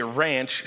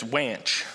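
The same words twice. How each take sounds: First: Said in the usual way. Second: "wanch" said with a W sound in place of the R; child's mispronunciation. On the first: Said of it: "she says wanch". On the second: Shown as a demonstration. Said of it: "she doesn't say ranch".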